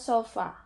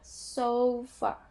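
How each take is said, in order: First: It is said the Indonesian way, with a pure first vowel. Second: It is said the English way, with a gliding first vowel. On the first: "Dalam bahasa Indonesia sofa" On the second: "cuman dalam bahasa Inggris kita ada so-nya"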